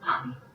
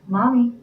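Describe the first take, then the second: First: It is said very quietly. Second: It is said a little louder.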